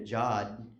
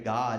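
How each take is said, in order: First: The word begins with a J sound. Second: The word begins with a hard G sound.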